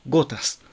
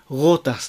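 First: The g is a full stop closure. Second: The g is a soft fricative without closure. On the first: The speaker calls it right. "ここは閉鎖音ですね" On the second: The speaker calls it wrong. "ゴータスではなく"

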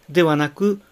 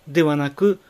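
Both takes have the same delivery.

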